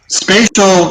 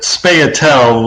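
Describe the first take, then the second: First: The word ends with a 'shul' sound. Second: The word ends with a 'tal' sound. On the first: The speaker calls it right. "spatial, yeah, I'm completely familiar with" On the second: The speaker calls it wrong. "you're swapping the positions of the T and the I when you say it that way"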